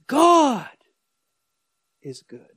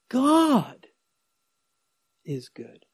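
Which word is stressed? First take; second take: God; God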